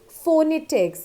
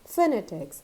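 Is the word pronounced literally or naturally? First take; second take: literally; naturally. First: Each letter is sounded out literally. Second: The word is said in its natural form. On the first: The speaker calls it wrong. "spelling says phonetics" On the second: The speaker calls it right. "it is actually pronounced as phonetics"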